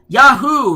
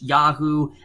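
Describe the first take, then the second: First: It is shouted out with excitement. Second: It is said plainly without excitement.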